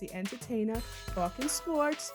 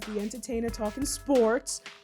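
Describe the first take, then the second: First: It is said in a New York accent. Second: It is said in her normal accent.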